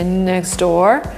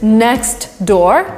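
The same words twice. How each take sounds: First: The T is dropped and the words run together. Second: The T is pronounced before door. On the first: This sounds more American. "where the T disappears and two words get linked together" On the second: Every sound is carefully spelled out. "the way we would pronounce it if ... the teacher told us pronounce everything"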